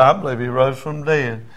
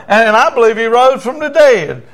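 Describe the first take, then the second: First: Understated imitation of a crying man; subdued repeat of the prayer; tearful repetition. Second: High, loud proclamation of faith; forceful raised prayer line; leading a prayer. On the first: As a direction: echo the declaration modestly. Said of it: "He's crying". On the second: Retold or imitated. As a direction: declare it ringingly for repeating. Preacher leads prayer for repeating.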